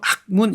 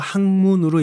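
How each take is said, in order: First: The middle consonant is a hard k sound. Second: The middle consonant is a nasal ng sound. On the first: The speaker calls it wrong. "이렇게 하지 말고" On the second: The speaker calls it right. "학문으로 읽으세요"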